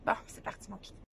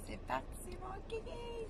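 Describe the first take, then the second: First: Groggy morning rasp. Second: Squeaky high cheer. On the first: Real, not acted. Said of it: "J'ai encore ma voix du matin". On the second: Pretend. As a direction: pitch way up, playful.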